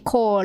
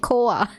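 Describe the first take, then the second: First: The word ends with an r sound. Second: The word ends in a plain vowel, no r. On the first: The speaker calls it wrong. "They don't say kore" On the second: The speaker calls it right. "They say koa"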